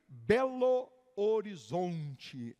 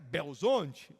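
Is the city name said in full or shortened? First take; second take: full; shortened. First: The name is said in full, every syllable. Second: The name is squeezed into fewer syllables. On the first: This is how outsiders say it. "Para quem não é daqui" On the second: This is how locals say it. "Mas para quem é mineiro"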